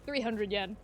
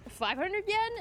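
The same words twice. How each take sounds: First: Said in the usual way. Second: "Five hundred yen" climbing high to "yen"; questioning. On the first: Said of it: "And she goes". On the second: Retold or imitated. Tourist checking the price, questioning. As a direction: ask it, lifting "yen" right up. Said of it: "Question mark?".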